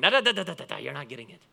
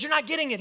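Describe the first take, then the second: First: Rabbi Jesus. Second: High, loud, insistent retold quote; emphatic retelling. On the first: Acted. Preacher mimicking Jesus for laughs, mock rabbi voice. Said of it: "That's my best Rabbi Jesus voice". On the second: Preacher retelling Jesus correcting the crowd, emphatic. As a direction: press the point home, pitched up high.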